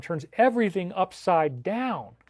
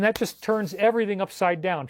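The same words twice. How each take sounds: First: "everything upside down" slow and drawn out; emphatic repeat. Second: Said in the usual way. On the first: Real, not acted. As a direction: stretch "everything upside down" for weight.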